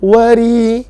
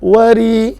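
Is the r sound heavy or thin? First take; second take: thin; thin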